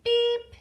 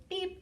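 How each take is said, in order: First: High, loud toy-car beep; playful beep. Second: Said in the usual way. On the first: Shown as a demonstration. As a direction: chirp it like a toy button. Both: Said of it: "likes to go beep".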